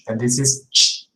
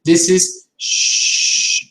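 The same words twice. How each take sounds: First: Short ch burst; crisp ch. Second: Drawn-out whispered sh; slow sh. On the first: Teacher contrasting ch with sh. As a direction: snap the ch. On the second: Teacher contrasting sh with ch. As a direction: hold the sh sound, slowly. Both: Shown as a demonstration. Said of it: "So you see".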